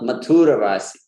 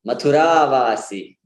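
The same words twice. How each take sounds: First: Mathura as ma-THOO-ra before Vasi; long U, short RA in Mathura Vasi; mispronounced Mathura. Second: Mathura as ma-thu-RAAA before Vasi; short U, long RA in Mathura Vasi; correct long vowel. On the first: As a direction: stress and prolong the U of Mathura. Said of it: "put the stress on the U". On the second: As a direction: stress and prolong the last ah of Mathura. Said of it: "Not Mathura Vasi". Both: Shown as a demonstration.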